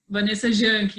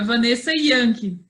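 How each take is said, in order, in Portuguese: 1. O sobrenome começa com som de ZH. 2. O sobrenome começa com som de Y. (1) "muita gente acaba falando Janke" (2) "Se pronuncia Yankee, mas escreve com J"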